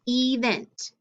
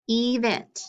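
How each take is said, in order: First: The first vowel is a long E sound. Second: The first vowel is a long E sound.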